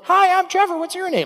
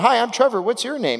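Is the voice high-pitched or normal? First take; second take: high-pitched; normal. First: It is said in a high, boyish voice. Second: It is said in his normal adult voice.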